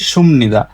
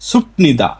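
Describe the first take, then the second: First: An m sound comes before the nida. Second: A p sound comes before the nida. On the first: The speaker calls it right. "আসল উচ্চারণ হচ্ছে সুমনিদা" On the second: The speaker calls it wrong. "নতুন নতুন কোরিয়ান শিখে সবাই বলে সুপনিদা"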